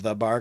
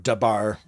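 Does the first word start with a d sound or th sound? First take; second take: th sound; d sound. First: The first word starts with a th sound. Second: The first word starts with a d sound. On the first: "instead of the bar" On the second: "Scandinavians use the th duh"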